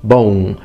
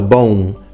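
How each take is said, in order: First: The final M fades into a nasalized vowel. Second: The final M fades into a nasalized vowel.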